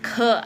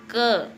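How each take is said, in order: First: The first consonant has a puff of breath. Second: The first consonant has no puff of breath. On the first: The speaker calls it right. "tapi ke, ada napasnya juga" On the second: The speaker calls it wrong. "bukan K atau ke ya"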